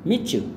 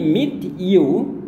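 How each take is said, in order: First: The t and y blend into a ch sound. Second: The words are said separately, with a clear t. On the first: "berubah jadi" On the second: "Sedangkan ini meet you"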